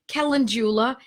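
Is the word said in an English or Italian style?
English. It is said with a plain English-style pronunciation. The speaker calls it wrong. "you don't say calendula"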